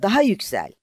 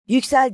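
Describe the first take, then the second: First: High, loud urging, stress on "Daha"; eager loud repeat, "Daha" hit hardest; shouting on. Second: Very high, loud single-word cry; sharp, very high command "Yüksel!"; shouted. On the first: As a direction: push "Daha yüksel!" out loud with weight on "Daha". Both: A narrator's reading. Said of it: "diye bağırdı".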